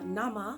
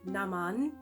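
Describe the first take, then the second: First: The word ends on a vowel, without a final N. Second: The word ends with a clear N sound. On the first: The speaker calls it wrong. "it sounded like I said uh, nama" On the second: The speaker calls it right. "naman with an N at the end"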